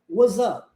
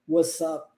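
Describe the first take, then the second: First: A Z sound links the two words. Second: An S sound links the two words. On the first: "o S sendo transformado em Z" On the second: "a variação do S com som de S juntando com o up"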